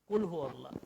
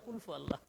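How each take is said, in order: First: The consonant after 'kul' is an h sound. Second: The consonant after 'kul' is an f sound. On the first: The speaker calls it right. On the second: The speaker calls it wrong.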